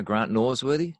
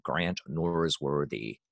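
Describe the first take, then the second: First: Said in the usual way. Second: American accent. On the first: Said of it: "tough for Americans, 'cause I'm actually saying". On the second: Shown as a demonstration.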